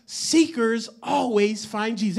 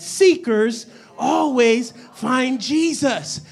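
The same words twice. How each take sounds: First: Said in the usual way. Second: Slow, each word set apart; emphatic call-and-response. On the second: Shown as a demonstration. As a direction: lead the congregation through it word by word. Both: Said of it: "Everybody say that".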